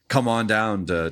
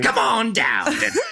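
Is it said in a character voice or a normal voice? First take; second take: normal voice; character voice. First: It is said in the speaker's ordinary voice. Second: It is said in a put-on character voice.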